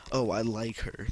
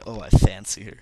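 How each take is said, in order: First: Said in the usual way. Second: "fancy" punched much louder; British wording demo. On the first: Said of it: "what they say instead". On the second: Shown as a demonstration. Showing viewers the British phrase, loud stress on "fancy". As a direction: hit "fancy" hard as the British alternative. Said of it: "They say".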